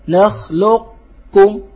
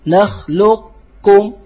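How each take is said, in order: The two takes are said the same way.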